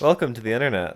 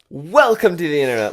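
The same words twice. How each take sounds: First: It is said in a flat monotone. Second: It is said with lively inflection.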